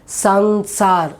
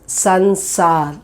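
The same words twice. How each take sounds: The two takes are said the same way.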